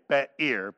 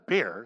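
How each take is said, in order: First: The name is said as two syllables. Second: The name is said as one syllable. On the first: "If I was pronouncing it, I should say Be'er" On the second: "but it says Beer"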